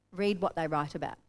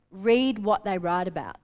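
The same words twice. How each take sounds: First: Said in the usual way. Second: Slow, stressed "read" at the start; emphatic. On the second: Shown as a demonstration. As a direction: lean on "read what they write about" slowly.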